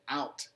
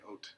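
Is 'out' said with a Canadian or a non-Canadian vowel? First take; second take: non-Canadian; Canadian. First: The vowel is a standard wide 'ow' sound. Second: The vowel is raised, sounding close to 'oat'. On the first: This is how the speaker talks now after moving away. "I also say out rather than oot" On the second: This is how people in the speaker's home country say it. "they don't say oot; they say oat"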